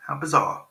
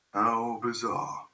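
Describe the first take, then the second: First: Said in the usual way. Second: Slow, softer, stretched-out musing; slow sung-like softer repeat; drawn out. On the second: Real, not acted. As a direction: linger on each word of the remark.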